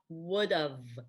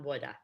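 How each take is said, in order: First: 'Have' shrinks to a short 'v' sound. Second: 'Have' is reduced to an 'uh' sound. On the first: The speaker calls it right. "I would've is fine" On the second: The speaker calls it wrong. "not woulda"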